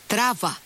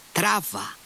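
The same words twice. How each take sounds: First: Higher again, a sharp command; curt order. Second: High, sharp command to drive on; angry shout. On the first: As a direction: tell the driver to go, now. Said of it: "είπε στον αμαξά". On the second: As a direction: bark it at the driver. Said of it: "φώναξε θυμωμένα". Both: A narrator's reading.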